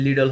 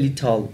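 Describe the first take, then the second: First: The middle t sounds like a soft d. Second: The middle t is a crisp t sound. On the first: "American অ্যাকসেন্টে বলি তাহলে লিডল হবে" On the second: "British অ্যাকসেন্টে বললে লিটল"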